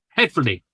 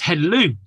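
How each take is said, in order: First: The word is said with a Welsh accent. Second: The word is said with an anglicized pronunciation. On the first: The speaker calls it right. "You just got to pronounce it in the Welsh twang" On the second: The speaker calls it wrong. "so many Welsh people get this wrong"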